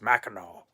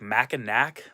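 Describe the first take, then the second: First: The name is said the way locals say it. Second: The name is said the way it is spelled. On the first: The speaker calls it right. "It's Mackinac" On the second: The speaker calls it wrong. "it's spelled like Mackinac, but the locals there were just like, no, you can't say it that way"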